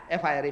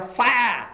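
First: Said in the usual way. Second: Demonstrated cry of alarm; exclamation. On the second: Shown as a demonstration. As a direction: call out "fire" with an exclamation mark. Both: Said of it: "exclamation mark".

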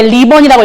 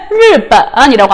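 First: 리본 with a plain Korean 리; mistaken li sound. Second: 일본 begun with a Mandarin r, like 르; Mandarin r sound. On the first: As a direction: misread rìběn as Korean 리본. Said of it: "리본이라고 읽으시면 안 돼요". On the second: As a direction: model 일본 as Chinese rìběn. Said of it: "르, 의 소리 강조하고 있어요". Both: Shown as a demonstration.

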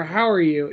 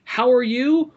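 First: Said in the usual way. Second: "How are you?" higher, lifting at the end; contrasted reading. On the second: Retold or imitated. Roommate comparing two versions, "How are you?" raised and rising. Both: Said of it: "What do you say o-, more often?".

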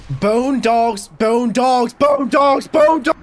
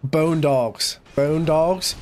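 First: Climbing, ever louder alarm yells; panicked shouting. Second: Said in the usual way. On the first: Real, not acted. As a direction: shout it higher each time in rising panic. Panics at dreaded enemies.

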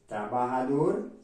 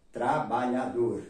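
First: "Trabajador" with a breathy h for the j; Spanish pronunciation. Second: "trabajador" with a lh sound for the j; Portuguese pronunciation. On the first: Teacher showing students the Spanish word, Spanish pronunciation. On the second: Teacher giving the Portuguese counterpart, Portuguese pronunciation. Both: Shown as a demonstration. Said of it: "en portugués".

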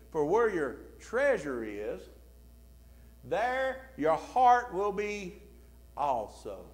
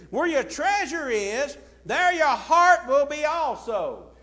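First: Said in the usual way. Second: Loud, higher and slow, leaning on treasure and heart; booming pulpit repetition; emphatic scripture quote. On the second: Shown as a demonstration. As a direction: proclaim the verse to the room. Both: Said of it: "I want you to notice what he said".

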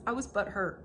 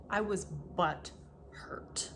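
First: Said in the usual way. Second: Slow whispered confession of "butthurt". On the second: Shown as a demonstration. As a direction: breathe it out slowly as a secret.

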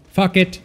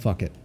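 First: Pitched-up outburst of giving up; loud exclamation. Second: Said in the usual way. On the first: Real, not acted. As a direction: shout it out, done caring. Gives up, then repeats louder.

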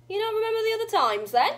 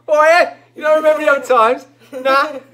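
First: Cockney. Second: Loud, high exaggerated cockney; brash, quickfire cockney send-up; mock cockney. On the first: Acted. Granny asks about other times, slipping into cockney. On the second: Director teasing the actress's reading, loud mock cockney. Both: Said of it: "he just went all cockney".

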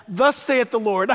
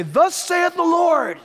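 First: Said in the usual way. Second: Slow, higher, solemn prophet's declaration; prophet's proclamation. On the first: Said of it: "Jesus never said". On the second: Retold or imitated. Preacher imitates Old Testament prophets declaring God's word, slow and solemn. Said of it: "the Old Testament prophets would say".

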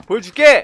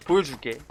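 First: Loud vow. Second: Said in the usual way. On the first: Real, not acted.

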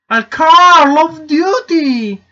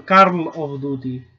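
First: Loud, high, long-drawn cry; hammed-up outcry, much higher and slower; mock shout. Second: Said in the usual way. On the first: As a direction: stretch the words into an over-the-top holler. Shouted, drawn-out echo of question.

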